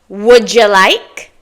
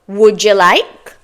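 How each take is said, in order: The two takes are said the same way.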